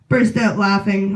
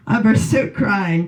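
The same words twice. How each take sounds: First: Said in the usual way. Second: "crying" said firmly as the fix for "laughing"; comic correcting a slip to the crowd, firm on "crying"; stress on crying. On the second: Shown as a demonstration.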